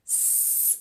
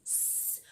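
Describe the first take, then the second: First: A soft unvoiced "S" hiss; just breathe the "S" out like a hiss; hissed S sound. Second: A long, very soft unvoiced "S" hiss; hissed S sound. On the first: Teacher showing kids the S sound, hissing softly. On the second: Teacher repeating the S sound for kids, barely audible hiss. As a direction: let the "S" hiss out almost silently. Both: Shown as a demonstration. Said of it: "o som do S é esse".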